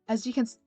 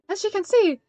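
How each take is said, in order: First: It is said without Esther's character voice. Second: It is said in Esther's character voice.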